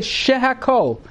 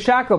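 First: The word is said fully with three syllables. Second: The word is clipped to two quick syllables. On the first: The speaker calls it right. "We just say shahakol" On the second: The speaker calls it wrong. "We say shackle, but it's not a shackle"

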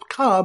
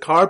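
First: It is said in a Boston accent, without the r. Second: It is said in a general, non-Boston accent.

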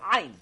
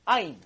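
First: It starts with a constriction deep in the throat. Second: It starts with a plain vowel onset. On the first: The speaker calls it right. "With the throat" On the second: The speaker calls it wrong. "pronounce the ayin with like an aleph"

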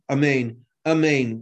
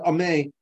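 First: The opening vowel is rushed and swallowed. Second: The final syllable and its n are dropped. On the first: "without an ah in the beginning" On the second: "you just have the first syllable, but you don't have a second syllable"

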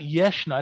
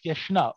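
First: The word has Ashkenazi-style stress. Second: The word has standard Israeli stress. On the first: The speaker calls it wrong. "it's not Yeshna" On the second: The speaker calls it right. "it's Yeshna"

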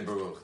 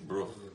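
First: The word is said fully with two syllables. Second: The word is clipped into a single syllable. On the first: The speaker calls it right. "They don't say baruch" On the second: The speaker calls it wrong. "They say bruch"

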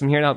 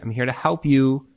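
First: It is said in a condescending, mocking tone. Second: It is said warmly and sincerely.

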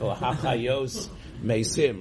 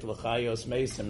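First: The stress falls on the last syllable. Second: The stress falls before the last syllable. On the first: It refers to reviving the dead. The speaker calls it right. "instead of" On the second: It refers to dead animals. The speaker calls it wrong. "neman to the dead animals"

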